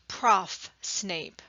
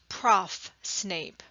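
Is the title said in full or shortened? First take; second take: shortened; shortened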